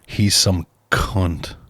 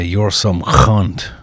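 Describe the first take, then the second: First: The C gets only mild emphasis. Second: The C is hit hard and angrily.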